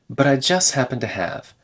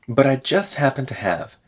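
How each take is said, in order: No difference in how they are said.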